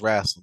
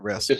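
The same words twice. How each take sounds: First: It is said with a Southern US pronunciation. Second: It is said with a standard US pronunciation. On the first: The speaker calls it right. "because we're from the South and it's wrestling" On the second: The speaker calls it wrong. "it's not wrestling"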